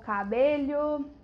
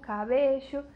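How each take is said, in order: First: The ll sound is like Portuguese lh. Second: The ll sound is a hushing sh sound. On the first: This is how it is said in other countries. "com o som do L H... mais parecido com o português" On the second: This is how it is said in Argentina. "na Argentina é um chiado"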